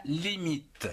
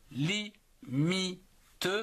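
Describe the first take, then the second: First: Said in the usual way. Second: "limite" split slowly into li, mi, te; syllable by syllable. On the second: Shown as a demonstration. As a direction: separate each syllable of "limite" with a pause, final te sounded. (« limite » détaché en trois syllabes : li, mi, te) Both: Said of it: "en trois syllabes".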